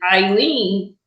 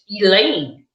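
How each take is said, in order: First: The name is said with an English pronunciation. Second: The name is said with a French pronunciation. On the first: "in, you know, English is Eileen" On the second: "in French, it's a total different name"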